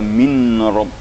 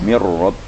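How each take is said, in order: First: The n is pronounced clearly before the r. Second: The n merges into a doubled r sound. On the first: The speaker calls it wrong. "jangan dibaca min rabb ya" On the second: The speaker calls it right. "dileburkan nun mati itu menjadi tasydid"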